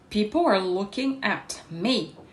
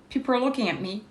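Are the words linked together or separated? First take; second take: separated; linked. First: Each word is said separately, robotically. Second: The words run together smoothly, linked. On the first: The speaker calls it wrong. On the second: The speaker calls it right.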